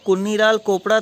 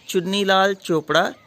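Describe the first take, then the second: First: The 'ch' sounds are said as 'k'. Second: The 'ch' sounds are said as 'ch'. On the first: The speaker calls it wrong. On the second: The speaker calls it right.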